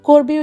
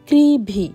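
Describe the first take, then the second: First: The name sounds like 'Corby', with a b sound. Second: The name sounds like 'Crivvy', with a v sound. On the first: This is how the spelling suggests it is said. The speaker calls it wrong. "করবি উচ্চারণ হয়" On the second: This is how the local villagers say it. The speaker calls it right. "গ্রামের লোকজন এটাকে বলে ক্রিভি"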